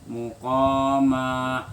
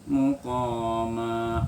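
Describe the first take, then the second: Both takes have the same delivery.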